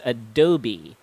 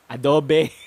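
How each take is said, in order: First: The middle O is stressed, ending in long E. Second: It sounds like adobo, ending in an O sound. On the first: "you put a little bit of emphasis on the O sound in the middle, and that is a long sound at the end, a long E sound" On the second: "it's pronounced with the same pronunciation adobo"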